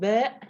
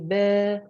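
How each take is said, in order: First: It ends with a glottal stop. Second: It ends in a plain long vowel. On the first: The speaker calls it wrong. "no hamza at the end" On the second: The speaker calls it right. "Just to say ba"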